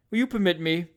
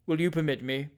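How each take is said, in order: First: Bland manner. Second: Said in the usual way. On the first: A narrator's reading. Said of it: "in his blandest manner".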